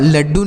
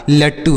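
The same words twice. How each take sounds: First: लड्डू with a voiced doubled "dd"; voiced middle consonant in लड्डू; wrong consonant in लड्डू. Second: लट्टू with an unvoiced doubled "tt"; crisp double t in लट्टू; correct consonant in लट्टू. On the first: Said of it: "लड्डू नहीं होगा". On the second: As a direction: say लट्टू with a hard retroflex t. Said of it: "लट्टू होगा". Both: Shown as a demonstration.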